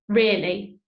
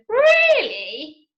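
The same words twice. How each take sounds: First: It is said flatly, as a plain statement. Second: It is said with a questioning, rising tune.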